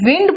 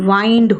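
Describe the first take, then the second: First: The vowel is a short 'i' sound. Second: The vowel is an 'eye' sound. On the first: It means moving air. "तब तो वो noun है" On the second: It means to turn or coil. "तो pronunciation"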